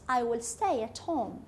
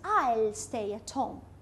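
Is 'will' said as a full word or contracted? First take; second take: full; contracted. First: Will is said in full as a separate word. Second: Will is contracted and joined onto I.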